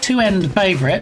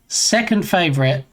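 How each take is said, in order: First: The number is read as two end. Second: The number is read as the word second.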